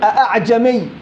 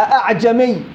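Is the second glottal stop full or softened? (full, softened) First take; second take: full; full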